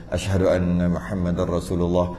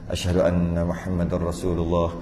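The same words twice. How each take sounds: The two takes are said the same way.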